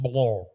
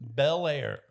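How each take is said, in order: First: The name is said as one syllable, Blor. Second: The name is said as two syllables, Bel Air. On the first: The speaker calls it right. "How is it pronounced? Blor" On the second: The speaker calls it wrong. "written Bel Air, Ohio, but it's not pronounced that way"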